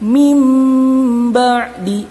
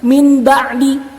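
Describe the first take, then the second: First: The first word ends in a nasalized m sound. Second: The first word ends in a plain n sound. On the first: The speaker calls it right. "merubah menjadi mim" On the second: The speaker calls it wrong. "lafaznya seperti ini sebenarnya"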